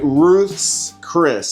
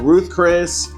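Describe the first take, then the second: First: An s sound follows Ruth, none follows Chris. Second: No s sound follows either word. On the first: The speaker calls it right. "now I said it right" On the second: The speaker calls it wrong. "I used to call it Ruth Chris"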